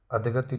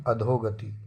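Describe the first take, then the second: First: अधगति with no o before g; wrong pronunciation. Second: अधोगति with a full dho; correct pronunciation. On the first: Teacher rejects the misspelling, अधगति without o. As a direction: jump from adh to gati in अधगति. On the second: Teacher gives the correction, अधोगति with long o. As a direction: sound a clear o before gati in अधोगति. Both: Shown as a demonstration. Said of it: "अधगति नहीं".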